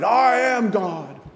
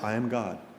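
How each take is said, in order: First: It is shouted loudly. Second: It is said at a normal, quiet volume.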